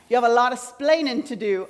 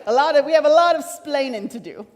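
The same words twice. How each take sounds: First: Put-on weak, half-hearted Cuban accent; a light first try at a Cuban accent, then give up; Ricky Ricardo accent. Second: Louder, hammed-up Cuban accent; Ricky Ricardo accent. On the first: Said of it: "I just keep hearing Ricky Ricardo's voice". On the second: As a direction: commit fully to a comic Cuban accent. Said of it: "I don't think that was a good accent".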